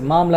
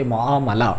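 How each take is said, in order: First: معاملہ clipped to maam-la, the middle vowel dropped; معاملہ as two quick syllables, maam-la; wrong pronunciation. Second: معاملہ in full as mu-aa-ma-la; معاملہ with every vowel said clearly; correct pronunciation. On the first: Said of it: "یہ لفظ معاملہ نہیں ہے". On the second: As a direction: say معاملہ properly, mu-aa-ma-la. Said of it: "جبکہ یہ لفظ ہے". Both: Shown as a demonstration.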